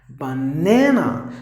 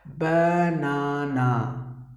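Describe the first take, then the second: First: The second syllable is stressed. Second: The second syllable is not stressed. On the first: The speaker calls it right. "you have to give more volume for the second part" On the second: The speaker calls it wrong. "Usually people say it as banana"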